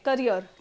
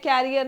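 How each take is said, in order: First: It sounds like the word career. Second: It sounds like the word carrier. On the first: It names a person's working life. The speaker calls it right. "इसको करियर बोलते हैं" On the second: It names the rack behind a bicycle. The speaker calls it wrong. "कैरियर नहीं, कैरियर cycle के पीछे होता है"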